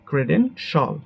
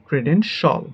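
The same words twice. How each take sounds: Both takes have the same delivery.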